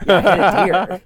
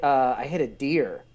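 First: Louder, deadpan prank caller voice; mock caller. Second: Said in the usual way. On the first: Jim Florentine's caller to the business, loud offhand mock voice.

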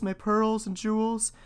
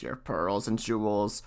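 First: Put-on high, slow young princess. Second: Low, slow frog voice. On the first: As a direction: lift it into an eager girlish plea. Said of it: "said she". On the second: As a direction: answer it lower and slower, as the frog. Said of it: "The frog answered". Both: A narrator's reading.

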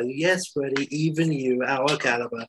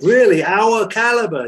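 First: Measured, unexcited reply to an outburst; level, assured confirmation; matter-of-fact reassurance. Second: High, loud, scoffing disbelief; outraged, astonished echo; incredulous. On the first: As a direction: answer evenly, settling the question. Calm answer to incredulous Freddie. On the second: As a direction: throw the question back, pitched way up and loud. Freddie reacts in disbelief. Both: Acted.

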